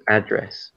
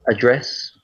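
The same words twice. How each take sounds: First: ADdress, weight on the first syllable; American first-syllable stress. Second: AdDRESS, weight on the second syllable; British second-syllable stress. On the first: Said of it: "they would say address". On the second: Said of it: "have a different stress". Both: Shown as a demonstration.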